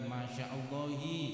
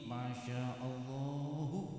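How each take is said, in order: First: The last word ends with an 'i' vowel. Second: The last word ends with a 'u' vowel. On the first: The speaker calls it wrong. "bukan masya Allahi" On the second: The speaker calls it right. "dibaca dhammah marfu'"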